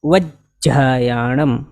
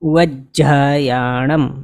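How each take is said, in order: Both takes have the same delivery.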